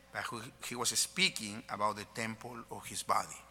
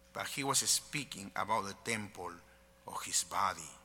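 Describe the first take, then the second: The two takes are said the same way.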